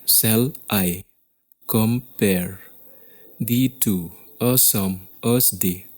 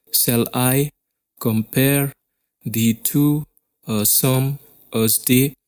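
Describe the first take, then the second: First: "Shall I / compare / thee to / a sum / as day", evenly paced pairs with pauses; measured, unforced pairs: "Shall I", "compare", "thee to", "a sum", "as day"; divided into two-sound feet. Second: "Shall I compare thee to a sum as day" with I, PARE, TO, SUM, DAY pushed out; every second syllable stressed. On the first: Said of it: "there are two sounds". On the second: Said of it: "every second sound is much more prominent". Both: Shown as a demonstration.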